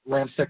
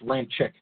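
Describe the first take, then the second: First: The name ends without a 'chick' sound. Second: The name ends with a 'chick' sound. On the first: The speaker calls it wrong. "not Ramczyk" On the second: The speaker calls it right. "it's Ramczyk"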